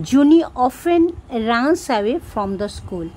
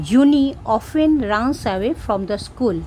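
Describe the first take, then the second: The two takes are said the same way.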